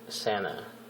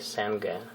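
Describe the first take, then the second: First: The G is silent, with no hard sound. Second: The G is pronounced as a hard sound. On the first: The speaker calls it right. "the letter G in this word is silent" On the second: The speaker calls it wrong. "we don't say Sanga. It's not correct"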